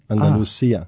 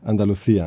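First: It is said with a southern s sound. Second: It is said with a Castilian th sound.

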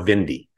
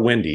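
First: The name is said with a German-style sound. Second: The name is said with a plain English sound. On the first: This is the new, German-leaning way of saying the name. "He's decided that he's really leaning into the German thing" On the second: This is the old way of saying the name. "he's no longer Windy"

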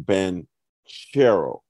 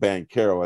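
First: The middle consonant sounds like 'ch' in cherry. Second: The middle consonant sounds like a hard 'k'. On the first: The speaker calls it right. "So it's like cherry" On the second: The speaker calls it wrong. "I'm going to stop calling him Bonchero as I've done just the last 10 minutes"

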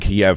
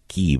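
First: It uses the long-established English pronunciation. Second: It uses the newer, local-sounding pronunciation. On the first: This is how it was said for centuries. "It's been Kiev for hundreds of years" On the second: The speaker is trying to sound like a local. "they sound like they're locals"

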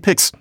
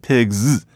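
First: The plural ending is a hissing s sound. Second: The plural ending is a buzzing z sound. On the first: The speaker calls it wrong. "I didn't say pigs" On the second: The speaker calls it right. "I said pigs. So it's a z"

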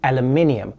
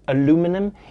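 First: The word is said the non-American way. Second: The word is said the American way. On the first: The speaker calls it right. "the correct pronunciation is aluminium" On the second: The speaker calls it wrong. "I'm going to be pronouncing it aluminum"

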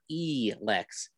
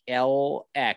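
First: The name starts with an 'ee' sound. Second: The name starts with a short 'a' sound. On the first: The speaker calls it wrong. "not E-Lex" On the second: The speaker calls it right. "It's pronounced like LX"

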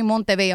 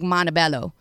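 First: The name is said with a Spanish pronunciation. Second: The name is said with an English pronunciation. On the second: "I'm not going to be like Montebello"

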